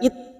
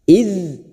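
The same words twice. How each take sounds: First: The final consonant stops abruptly without airflow. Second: The final consonant continues softly with breathy airflow. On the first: The speaker calls it wrong. "Jangan sekedar id" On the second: The speaker calls it right. "ada sifat rikhwah dan hamas"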